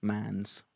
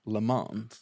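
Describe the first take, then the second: First: "Mans" said like English mans, flat a with a clear z; anglicized Mans. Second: "Le Mans" said lə mɑ̃nz, French nasal a with a faint z at the end; Le Mans with a soft z. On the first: Shown as a demonstration. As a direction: say "Mans" the blunt English way on purpose. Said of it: "if I was being offensive". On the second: Real, not acted. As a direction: say "Le Mans" the French way but let a little z slip at the end. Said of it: "You got a little Z on the end there".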